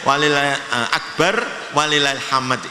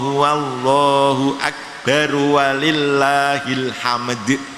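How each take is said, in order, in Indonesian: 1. Ada jeda antara akbar dan walillahil. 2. Akbar langsung menyambung ke walillahil tanpa berhenti. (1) "tidak boleh" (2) "harus diwasolkan"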